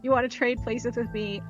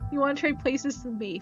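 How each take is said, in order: First: It is said in a plain tone. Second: It is said in a flirty tone.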